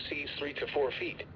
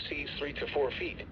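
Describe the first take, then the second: No difference in how they are said.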